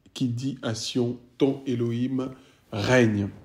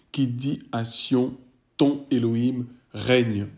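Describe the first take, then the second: The two takes are said the same way.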